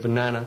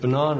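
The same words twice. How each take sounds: First: The word is said in an American accent. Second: The word is said in a British accent. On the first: "instead of banana" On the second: "I was the English waiter. And that meant that I said banana"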